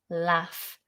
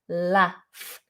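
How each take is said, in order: First: The vowel is short, like in 'cat'. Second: The same.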